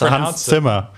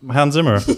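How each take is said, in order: First: The name is said with a German pronunciation. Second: The name is said with an English pronunciation. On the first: The speaker calls it right. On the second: The speaker calls it wrong.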